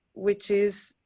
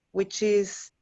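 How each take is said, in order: Both takes have the same delivery.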